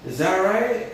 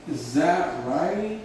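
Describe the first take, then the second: First: Said in the usual way. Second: Drawn-out words, unhurried; slow teacher repetition; slow model phrase. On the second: Shown as a demonstration. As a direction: stretch each word for the learners. Repeats slowly while writing.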